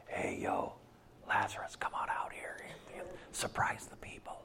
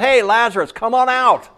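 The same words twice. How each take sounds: First: Hushed, casual whisper to Lazarus; mock secret whisper. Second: High, loud holler for all to hear; loud public call. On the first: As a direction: whisper it low, as if keeping it secret. Mock secretive call, contrasted with loud one. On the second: Acted. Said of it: "he wanted them to know why".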